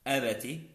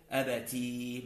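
First: "أبتي" with short final i; "أبتي" cut short on the kasra. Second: "أبتي" held on a long ee; "أبتي" drawn out on the final ya. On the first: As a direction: keep "أبتي" brief: a-ba-ti. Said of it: "بالتاء المكسورة". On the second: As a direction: stretch the end of "أبتي": a-ba-teee. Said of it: "مع الياء". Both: Shown as a demonstration.

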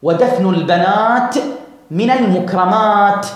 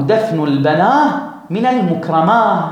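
First: Slow long endings on البنات and المكرمات, crisp t; stop on T. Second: البناه and المكرماه ending in long aah, no t; stop on H. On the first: Teacher correcting to the preferred pause, final t on both. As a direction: draw out each aat and close on t. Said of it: "تقول هكذا". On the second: Teacher quoting the dialect proverb, h endings on both nouns. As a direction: let both plural endings fade into h. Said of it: "أن تقف على التاء بالهاء". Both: Shown as a demonstration.

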